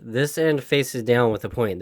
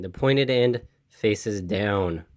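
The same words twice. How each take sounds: First: Said in the usual way. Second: Slow, leaning hard on "pointed"; slow, stressed restatement. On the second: Shown as a demonstration. Restating the rule for a viewer, slow with "pointed" stressed. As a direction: spell it out slowly, hitting "pointed".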